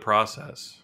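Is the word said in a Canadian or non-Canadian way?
non-Canadian. It is said with a non-Canadian pronunciation. It is the usual non-Canadian form. "instead of"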